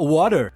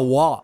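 First: The word is said in full with a clear t. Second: The word is clipped, its t sound dropped. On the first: "ele vai falar water" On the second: "só que ele fala wa"

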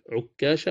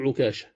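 First: The k sound is doubled and held longer. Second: The k sound is single and short. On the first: "تنطق بالتشديد" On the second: "والتخفيف"

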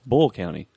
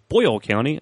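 First: The first word is clipped, like 'Bull'. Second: The first word is said fully, like 'Boyle'. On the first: Locals say it this way. The speaker calls it right. "no, it's Bull County" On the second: Outsiders say it this way. The speaker calls it wrong. "they say Boyle County"

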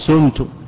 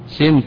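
First: The first vowel is a clear u sound. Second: The first vowel is rounded toward u. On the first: The verb is in the active voice. The speaker calls it wrong. "ولا يجوز الضم فلا تقول سمت" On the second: The verb is in the passive voice. The speaker calls it right. "الإشمام"

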